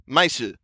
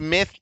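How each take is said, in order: First: It is said with an s sound. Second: It is said with a th sound.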